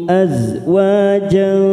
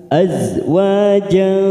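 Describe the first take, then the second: The two takes are said the same way.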